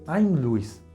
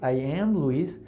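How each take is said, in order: First: Pronoun and verb are merged into one word. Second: Pronoun and verb are said as separate words. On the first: "So I say" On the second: "Whereas here I, I say"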